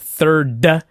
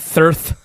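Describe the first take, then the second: First: The word ends with a d sound. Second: The word ends with a th sound. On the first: The speaker calls it right. "I'm trying to teach her third" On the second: The speaker calls it wrong. "not thirth"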